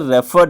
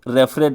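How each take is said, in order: First: The ending joins the last syllable with no extra syllable. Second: The ending is said as a separate extra syllable. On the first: The speaker calls it right. "रेफर्ड है ये" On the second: The speaker calls it wrong. "रेफरेड नहीं"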